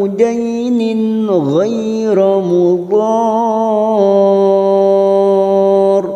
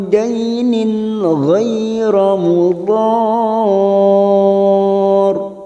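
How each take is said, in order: No difference in how they are said.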